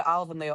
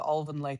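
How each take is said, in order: First: "Alvanley" said AL-vun-lee, short A as in pal. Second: "Alvanley" said OL-vun-lee, rounded first vowel. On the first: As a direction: start "Alvanley" with a short AL sound. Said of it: "it's either Alvanley or Alvanley". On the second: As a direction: start "Alvanley" with a rounded OL sound. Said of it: "depending where you come from". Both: Shown as a demonstration.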